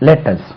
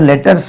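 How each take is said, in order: First: It is said with an English-style pronunciation. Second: It is said with a Tamil-style pronunciation. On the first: The speaker calls it right. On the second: The speaker calls it wrong.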